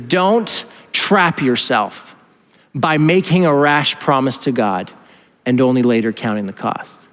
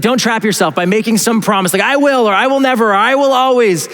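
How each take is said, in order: First: Slow, deliberate quoting; measured scripture reading. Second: Higher, quicker restating; animated paraphrase. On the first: Acted. Preacher quotes Proverbs to church, measured reading. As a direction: read it out slowly, phrase by phrase. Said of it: "He says this, he says". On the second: Retold or imitated. Preacher paraphrases the Proverbs author, animated restating. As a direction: rephrase it lively, pitch climbing on the vows. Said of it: "He's like".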